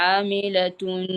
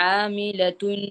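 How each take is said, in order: Both takes have the same delivery.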